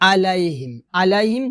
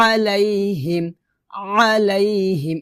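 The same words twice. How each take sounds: First: "আলাইহিম" with plain a, no ayn; unpressed start on "আলাইহিম"; wrong hamza. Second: "আলাইহিম" opened with squeezed throat; correct ayn. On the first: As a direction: say "আলাইহিম" in the everyday way. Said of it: "বলা যাবে না". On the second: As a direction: press mid-throat to begin "আলাইহিম". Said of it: "এভাবে". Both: Shown as a demonstration.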